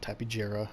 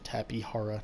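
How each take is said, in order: First: The middle consonant is a J sound. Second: The middle consonant is a soft H sound. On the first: The speaker calls it wrong. "not Tapijara, as I've heard some people call it" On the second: The speaker calls it right. "correct pronunciation"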